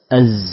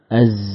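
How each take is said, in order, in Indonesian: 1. Z di akhir berubah menjadi desis s. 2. Z di akhir berubah menjadi desis s.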